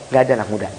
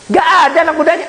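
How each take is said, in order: First: Dropped quiet. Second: Nggak ada anak mudanya fast, higher, punched on nggak; emphatic repeat. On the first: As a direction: lower and softer, nggak ada anak muda trailing away. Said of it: "semua isinya orang tua". (nggak ada anak muda diucapkan pelan dan rendah) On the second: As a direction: fire back the repeat with force. (Nggak ada anak mudanya diulang cepat, tinggi, tekanan pada nggak) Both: Shown as a demonstration.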